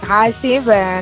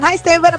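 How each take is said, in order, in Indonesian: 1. Sapaannya diucapkan dengan tempo yang lebih lambat. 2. Sapaannya diucapkan dengan tempo yang lebih cepat.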